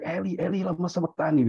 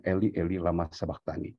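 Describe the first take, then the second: First: Higher, pleading cry from the cross; mock the cry to the Father, higher; imitated cry of anguish. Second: Said in the usual way. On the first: Son crying out to his father, imitated higher cry. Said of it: "Ketika dia berteriak". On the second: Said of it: "ketika teriak kepada bapaknya".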